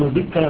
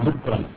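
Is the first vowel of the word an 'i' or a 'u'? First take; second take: i; u. First: The first vowel is an 'i' sound. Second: The first vowel is a 'u' sound. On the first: Remembrance spoken with the tongue. The speaker calls it wrong. "فلا يكون ذكرا" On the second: Remembering in the mind without speaking. The speaker calls it right. "بل يكون ذكرا"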